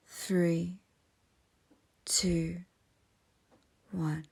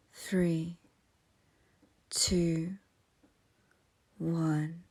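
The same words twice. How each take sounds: The two takes are said the same way.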